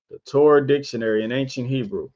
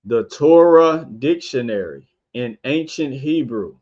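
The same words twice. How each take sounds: First: Faster repeat of the title; brisk recap of the book title; quick repeat. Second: Unhurried, careful title reading. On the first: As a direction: rattle the title off a second time. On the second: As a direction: lay out each word of the book title. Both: Shown as a demonstration. Reads title twice.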